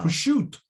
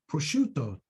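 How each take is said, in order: First: It is said with an Italian American pronunciation. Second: It is said with a standard Italian pronunciation. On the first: The speaker calls it wrong. "that's Italian American pronunciation" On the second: The speaker calls it right. "Why don't they speak like Italians"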